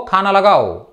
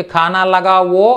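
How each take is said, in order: First: "లగావో" shortened to la-gaav, final o swallowed; colloquial "లగావో". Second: Slow "ఖానా లగావో" with a long final o; full "లగావో". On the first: Teacher showing everyday usage, "లగావో" with the ending reduced. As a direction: clip the last vowel of "లగావో" into lagaao. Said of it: "లగావో, లగావో అంటూ ఉంటారు". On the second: Teacher giving the full command form, slow "లగావో" ending in a clear o. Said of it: "లగావోనే ఏమంటున్నారు లగావో, లగావో". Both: Shown as a demonstration.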